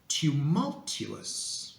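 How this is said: It is said in a very posh, refined way. "You can pronounce the words such as tumultuous"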